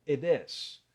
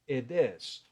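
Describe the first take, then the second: Both takes have the same delivery.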